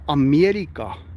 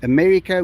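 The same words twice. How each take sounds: First: It is said with an Afrikaans pronunciation. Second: It is said with an English pronunciation.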